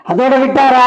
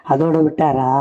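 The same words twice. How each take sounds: First: High, loud cry to the crowd; ringing high-pitched orator's call; loud rallying question. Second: Said in the usual way. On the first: Real, not acted. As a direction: throw the question out at full force. Rally question repeated at full force.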